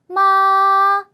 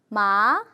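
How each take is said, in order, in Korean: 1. 높은 음으로 끝까지 평평하게 유지돼요. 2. 중간 높이에서 높게 올라가요. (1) "길고 좀 높게 그리고 평탄하게 쭉 가면 돼요" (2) "두 번째는 이성이에요"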